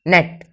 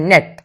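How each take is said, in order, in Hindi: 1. शब्द व्यंजन पर तेज़ी से खत्म होता है। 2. शब्द व्यंजन पर तेज़ी से खत्म होता है।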